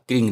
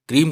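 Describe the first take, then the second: First: The word ends with an ng sound. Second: The word ends with an m sound. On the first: The speaker calls it wrong. "क्रींग नहीं कहा जाएगा" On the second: The speaker calls it right. "शास्त्रीय दृष्टि से देखें तो ये बीज मंत्र क्रीम कहा जाएगा"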